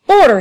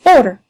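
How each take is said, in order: First: Order! shouted higher and louder. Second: A loud barked Order!; shout of order. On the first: The keeper shouting the room to order, higher and louder. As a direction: really crack it out the second time. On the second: The keeper calling the brawlers to order, loud. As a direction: call the room to order. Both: Acted.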